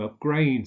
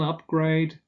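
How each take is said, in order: First: The stress is on the second syllable. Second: The stress is on the first syllable. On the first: It is used as a verb. "to upgrade something" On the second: It is used as a noun. "an upgrade"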